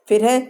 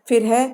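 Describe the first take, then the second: The two takes are said the same way.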